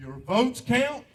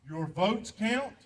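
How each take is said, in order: First: Louder insistence. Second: Each word set down slowly; very slow and deliberate. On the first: Veteran repeating his plea to vote, louder and insistent. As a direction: punch it out louder. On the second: Veteran urging the audience to vote, slow and deliberate. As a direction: drag it out so it sinks in. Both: Real, not acted.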